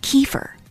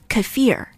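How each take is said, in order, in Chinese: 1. 重音在第一个音节。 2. 重音在第二个音节。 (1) "the most often heard pronunciation is kefir. But a lot of people say that it's not correct" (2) "the correct pronunciation should be kefir"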